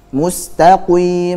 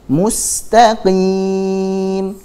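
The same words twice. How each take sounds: First: The q sound is too heavy, with rounded lips. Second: The q sound is between heavy and light. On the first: The speaker calls it wrong. "contohnya begitu, salah" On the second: The speaker calls it right. "Di antara itu, jangan terlalu tebal, jangan juga terlalu tipis"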